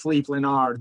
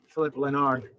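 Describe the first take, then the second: First: The first name has a foreign, non-English sound. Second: The first name sounds like English Philip. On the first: The speaker calls it right. "It's Philippe Leonard" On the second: The speaker calls it wrong. "that's not the way it is pronounced"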